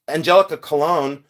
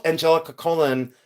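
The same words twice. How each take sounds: First: Colon said as kuh-LONE; correct surname pronunciation. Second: Colon said as COLE-un, stressed up front; mispronounced surname. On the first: Shown as a demonstration. Streamer giving viewers the real name, Colon as kuh-LONE. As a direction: stress the second syllable of Colon, kuh-LONE. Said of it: "I called her Angelica Colon". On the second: Retold or imitated. Streamer admitting what she called her, Colon as COLE-un. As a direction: say Colon like the punctuation mark, COLE-un. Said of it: "It wasn't good".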